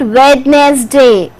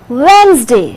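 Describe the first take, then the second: First: The d is pronounced, giving three syllables. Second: The d is silent, giving two syllables. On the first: The speaker calls it wrong. "you are not going to say it" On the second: The speaker calls it right. "D is silent. Only two syllables will be there"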